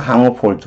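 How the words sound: Comma is said with English vowels, like 'kahmuh'. "영어식으로 하면"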